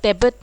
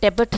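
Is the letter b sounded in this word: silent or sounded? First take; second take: sounded; sounded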